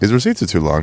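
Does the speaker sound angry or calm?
calm. The voice sounds calm and mild. The speaker just notices the receipts. "Just be like"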